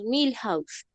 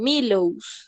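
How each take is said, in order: First: The h in the middle is sounded. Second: The h in the middle is silent. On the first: The speaker calls it right. "la H en el inglés sí suena" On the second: The speaker calls it wrong. "si nosotros lo leyéramos en el español"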